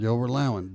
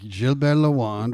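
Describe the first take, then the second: First: Both names are said with English pronunciation. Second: Both names are said with French pronunciation.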